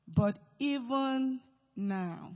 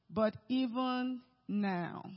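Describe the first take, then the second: First: "even" drawn out long and slow, stretched and lifted; stress on even. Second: Said in the usual way. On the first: Shown as a demonstration. Preacher reads Martha's faith, "even" stretched slow. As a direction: lean hard on "even" and let "now" fall. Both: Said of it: "Do you know even now?".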